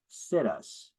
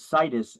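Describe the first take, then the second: First: It sounds like the phrase 'sit us'. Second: It does not sound like 'sit us'.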